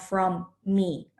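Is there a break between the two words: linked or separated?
separated. The two words are split by a short break. The speaker calls it wrong.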